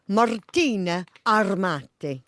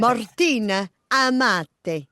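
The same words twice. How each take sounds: First: Showy Italian accent, slightly off as "Armati"; learner's overdone Italian accent; attempted Italian accent. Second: Slow, careful Italian accent on "Martina Amati"; corrected Italian pronunciation, each name lingered on. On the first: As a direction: present "Martina Armati" with an Italian flourish. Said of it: "trying to do it in an accent". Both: Shown as a demonstration.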